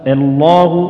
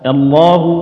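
Both takes have the same delivery.

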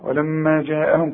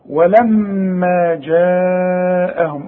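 First: The long vowel is cut short. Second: The long vowel is drawn out at length. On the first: The speaker calls it wrong. "مش تقول لي ولما جاءهم كده" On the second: The speaker calls it right. "اهو ده المد الواجب، لازم"

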